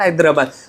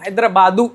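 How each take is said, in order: First: The name ends with a plain 'd' sound. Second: The name ends with an added 'oo' vowel. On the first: This is not the Telugu form. The speaker calls it wrong. "Not हैदराबाद" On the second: This is the form used in Telugu. The speaker calls it right. "We से इन तेलुगु"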